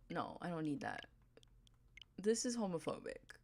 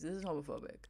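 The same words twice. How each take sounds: First: Hushed whisper of fake scandal; breathy whispered joke accusation; whispered mock outrage. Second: Said in the usual way. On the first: Real, not acted. Mock outrage at game villager.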